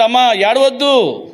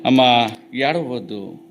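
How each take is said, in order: First: Slow and raised, pressing on ఏడవద్దు as a firm, pitying "do not weep"; a lord stopping a mother's tears, raised and deliberate; compassionate command. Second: Hushed, slow consolation on అమ్మా; tender comfort. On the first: Jesus speaks to the weeping widow. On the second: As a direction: soothe a grieving mother gently. Same words repeated to the widow. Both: Acted.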